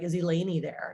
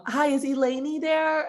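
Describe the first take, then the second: First: Said in the usual way. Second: Stranger mispronouncing name. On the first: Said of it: "if they call and said". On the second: Retold or imitated. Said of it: "my girlfriend's name would".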